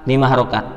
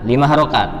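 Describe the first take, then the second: Both takes have the same delivery.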